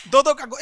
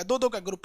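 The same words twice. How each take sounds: First: Calls it out loud and sharp to the class. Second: Said in the usual way. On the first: Shown as a demonstration. Teacher to online students, loud call-out. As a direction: projects the start of the drill. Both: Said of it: "एक बार मेरी ओर देखिए कैसे हम बोलते हैं".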